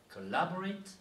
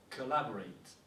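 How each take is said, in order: First: "collaborate" climbing high after a light CO; "collaborate" with the accent thrown past CO, higher; stress off first syllable. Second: "collaborate" set apart to show its opening CO; "collaborate", measured and falling at the end; sounding out CO. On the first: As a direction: punch LAB in "collaborate" and end rising. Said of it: "l'accentuation ne se fait jamais sur la première syllabe". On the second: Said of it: "c'est la sonorité". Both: Shown as a demonstration.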